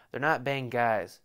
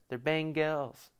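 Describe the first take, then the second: First: "Bengals" said as bang-guys; slowly twist the end of "Bengals" to rhyme with "eyes"; mock-correcting, with "Bengals" as bang-guys; playful mispronunciation. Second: "Bengals" said slowly as bang-gells; mock-correcting, with "Bengals" as bang-gells; playful mispronunciation. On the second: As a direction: stretch the end of "Bengals" to rhyme with "bells". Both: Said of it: "Is that like an accent?".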